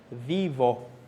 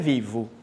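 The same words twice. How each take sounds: First: The final vowel sounds like 'oh'. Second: The final vowel sounds like 'oo'. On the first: The speaker calls it right. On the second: The speaker calls it wrong.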